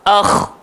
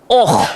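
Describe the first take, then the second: First: The opening sound is thin and light. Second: The opening sound is thick and heavy. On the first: The speaker calls it right. "hamzah tu tetaplah nipis, yang gemuk cuma kho" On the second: The speaker calls it wrong. "jangan gemukkan hamzah tu awal-awal sebab ada orang dia baca oh"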